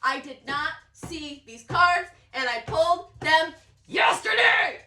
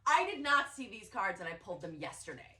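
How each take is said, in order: First: Rising, louder disbelief; emphatic amazement. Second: Said in the usual way. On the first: Real, not acted. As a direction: punch each word, then shout the last.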